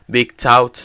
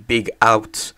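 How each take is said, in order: First: A T sound is heard before 'out'. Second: The T sound before 'out' is dropped. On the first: The speaker calls it right. "Now I accept Big Tout" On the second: The speaker calls it wrong. "people calling me Big Out when you see the T"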